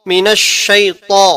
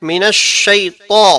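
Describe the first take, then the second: No difference in how they are said.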